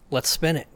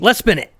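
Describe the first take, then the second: First: It is said plainly, without much intensity. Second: It is said faster, with more intensity.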